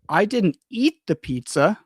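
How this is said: The stress falls on the word eat. "The focus is on eat"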